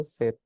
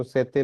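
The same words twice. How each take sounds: First: सेत with the final e dropped; correct reading. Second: सेते with a full final e, wrongly; wrong reading. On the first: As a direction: say सेत, ending on the t. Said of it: "क्या पढ़ेंगे, सेत". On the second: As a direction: read सेते ending on a clear e. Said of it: "इसको सेते नहीं पढ़ना". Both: Shown as a demonstration.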